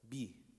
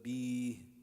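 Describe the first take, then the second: First: The vowel is held only briefly. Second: The vowel is drawn out longer. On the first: The speaker calls it right. "one second" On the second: The speaker calls it wrong. "b is stretching it"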